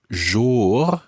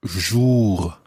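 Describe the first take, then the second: First: Jour said like English more with a zh; jour, rhyme-with-more trick; jour rhyming with more. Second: Jour, French vowel. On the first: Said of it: "as in rhyming with more". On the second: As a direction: say jour with lips rounded. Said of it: "sounds very much like". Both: Shown as a demonstration.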